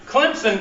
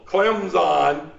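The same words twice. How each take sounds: First: Clemson said as "Klimpson" with a P sound; local Clemson pronunciation. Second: Clemson said "Klem-zon" with a clear Z; ESPN pronunciation. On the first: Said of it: "does have a P in it if you're from around here". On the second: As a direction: say Clemson like a TV sportscaster, with a Z. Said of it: "like the E S P N people". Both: Shown as a demonstration.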